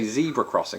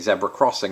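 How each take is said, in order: First: Said in an American accent, first syllable 'zee'. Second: Said in a British accent, first syllable 'zeb'.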